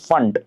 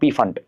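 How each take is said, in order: First: The word starts with an F sound, no P. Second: The word starts with a P sound before F. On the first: The speaker calls it right. "P is silent here. You pronounce it as fund" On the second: The speaker calls it wrong. "not P fund"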